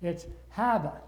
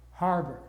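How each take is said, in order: First: "harbor" said "hah-buh" without the r; "harbor" with an r-less Boston vowel. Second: "harbor" with a full American r, "har-ber"; "harbor" in a standard American accent; rhotic harbor. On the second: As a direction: say "harbor" with both r sounds clearly. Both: Shown as a demonstration.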